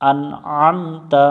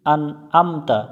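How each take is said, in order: First: "আমতা" opening from mid-throat after light "আন"; throat-made ain. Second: "আন আমতা" with plain a, no throat sound; common mistaken reading. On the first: Shown as a demonstration. Teacher correcting the mistake, "আন আমতা" with throaty ain. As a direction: squeeze the first vowel of "আমতা" in the throat. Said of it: "আইন গলার মধ্য থেকে উচ্চারণ". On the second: Retold or imitated. Teacher showing a common mistake, "আন আমতা" without throaty ain. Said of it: "আমরা অনেকজনে ভুল করি".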